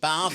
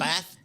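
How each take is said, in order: First: The word is said in a Kent accent. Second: The word is said in a Yorkshire accent. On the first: "I was from Kent, so I said bath" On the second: "He said bath"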